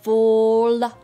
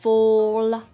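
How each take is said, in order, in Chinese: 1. 结尾的 l 要弹一下放开。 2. 结尾的 l 要弹一下放开。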